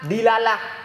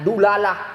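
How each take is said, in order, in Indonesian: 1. Vokal pertamanya bunyi i. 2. Vokal pertamanya bunyi u. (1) "kasrahnya dal" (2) "tapi juga bisa dibaca dengan dulalah"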